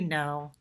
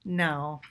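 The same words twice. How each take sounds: Both takes have the same delivery.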